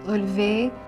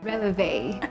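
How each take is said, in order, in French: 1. Il est prononcé avec des sons français. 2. Il est prononcé avec des sons anglais.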